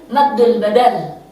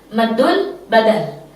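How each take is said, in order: Both takes have the same delivery.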